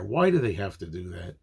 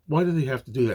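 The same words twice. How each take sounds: First: Said in the usual way. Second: "Why do they have to do that?" pitched higher; exasperated repeat. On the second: Real, not acted. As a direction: press the complaint home on "Why do they have to do that?". Repeats his complaint with more force.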